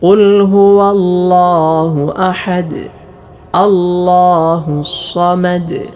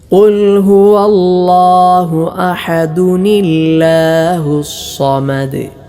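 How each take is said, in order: First: There is a stop after 'ahad'. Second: 'Ahad' runs straight on as 'ahaduni'. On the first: "ഓരോ ആയത്തുകളിലും വഖഫ് ചെയ്തുകൊണ്ട് ഓതുന്ന രൂപമാണ്" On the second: "ആയത്തുകൾ ചേർത്തുകൊണ്ടാണ് ഓതാറുള്ളത്"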